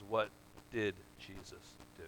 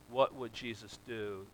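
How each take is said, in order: First: "did" set off by a pause and leaned on; stress on did. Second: Said in the usual way. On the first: Shown as a demonstration. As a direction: pause after "What", then weight the word "did". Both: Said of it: "the emphasis there is really on the wrong syllable".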